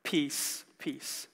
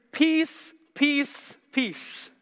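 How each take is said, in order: First: "peace, peace" low and soft, dying away; understated. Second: PEACE three times in separate beats, raised pitch; superlative emphasis. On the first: Preacher conceding only this much peace on earth, understated. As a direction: drop both words of PEACE down quietly, with a gap between. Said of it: "we get to experience only just". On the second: Preacher promising heaven's peace in the most superlative way, emphatic. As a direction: lift each "peace" high, easing on the last. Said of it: "In the most superlative, most excellent way". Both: Shown as a demonstration.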